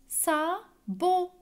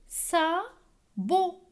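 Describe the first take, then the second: The two takes are said the same way.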